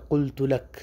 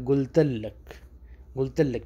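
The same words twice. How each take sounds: First: قلت لک slowly with a full qaf; classical Arabic. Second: قلت لک as گلت لک, with a g; colloquial Arabic. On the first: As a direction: fusha قلت لک, clear and slow. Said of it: "اصل لفظ ہے". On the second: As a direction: dialect قلت لک, the qaf turned into a g. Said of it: "کیسے بولا جائے گا". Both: Shown as a demonstration.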